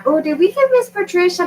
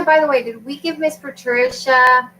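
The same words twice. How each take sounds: First: High, excited quoting voice; chirpy voice of a customer; mimicking customers. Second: Said in the usual way. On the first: Quoting people asking about link.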